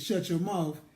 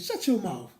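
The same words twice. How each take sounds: First: It sounds like a stern, serious command. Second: It sounds like a playful, joking reaction. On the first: The listener is told to be quiet. "Like to keep quiet" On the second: The speaker agrees with what was just said. "It was like an agreement to like maybe something I said"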